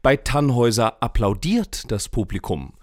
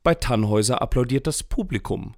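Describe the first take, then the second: First: The word applaudiert carries the main stress. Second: The word Publikum carries the main stress. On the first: The audience only clapped, without cheering or stamping. "Johlen und Stampfen ist nicht dabei" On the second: The audience liked it, but the critics did not. "Die Kritiker fanden es eher so mittel"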